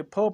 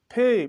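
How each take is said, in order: First: फ as a bare short syllable; फ with a short a sound; wrong reading. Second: फे with a clear e vowel; फे with a long e, not फ; correct letter name. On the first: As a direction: say फ the way not to read it. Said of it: "नहीं फ नहीं पढ़ेंगे". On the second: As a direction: say फे the right way. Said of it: "फे पढ़ते हैं". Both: Shown as a demonstration.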